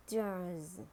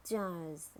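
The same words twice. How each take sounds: First: "jars" with a sounded American R; American "jars", curl the R before s; American accent. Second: "jars" with a British silent R; British "jars", said jahz; British accent. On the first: Teacher models jars for learners, American accent. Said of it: "R in American English". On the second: Teacher models jars for learners, British accent. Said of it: "in British English". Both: Shown as a demonstration.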